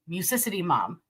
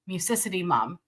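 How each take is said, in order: First: The two words are merged into one word. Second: The same.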